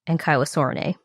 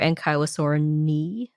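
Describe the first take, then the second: First: The vowels are pronounced with an 'ay' sound. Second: The vowels are pronounced with an 'ee' sound.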